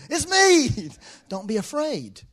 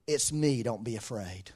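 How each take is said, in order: First: High, loud call that eases down. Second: Calm reassurance. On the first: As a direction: hail them loudly, then reassure. Voices Jesus calling to terrified disciples. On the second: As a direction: settle their fear gently, voice dropping. Voices Jesus calming the disciples. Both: Retold or imitated.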